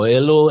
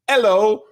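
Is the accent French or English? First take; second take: French; English. First: It is said in a French accent. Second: It is said in an English accent.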